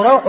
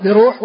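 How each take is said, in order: First: روح said RAWH; روح with open a and w glide; correct fatha form. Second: بروح said bi-ROOH, long u; بروح with rounded u after the r; rejected damma form. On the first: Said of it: "والصحيح أنه". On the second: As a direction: say بروح as bi-ruuh. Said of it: "وليس". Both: Shown as a demonstration.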